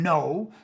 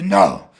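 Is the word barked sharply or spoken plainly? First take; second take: spoken; barked. First: It is spoken as a plain, ordinary word. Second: It is a short, sharp, forceful bark. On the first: "No goes from no" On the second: "it almost becomes a bark"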